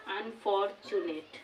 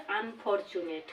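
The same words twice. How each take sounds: First: unfortunate slow and soft, an-for-chu-net in separate beats; four-syllable breakdown. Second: Said in the usual way. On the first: Shown as a demonstration. Teacher showing a tetrasyllable, unfortunate slowly broken as an-for-chu-net. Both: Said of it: "আমরা চারবারে উচ্চারণ করতে পারছি".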